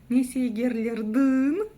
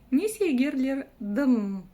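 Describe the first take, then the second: First: The last vowel is a back 'y' sound. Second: The last vowel is between 'y' and 'ee'. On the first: The speaker calls it wrong. "Прям попробуйте через «ы». ... Неудобно" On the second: The speaker calls it right. "палочка с точкой – это самая мягкость, которая нам необходима"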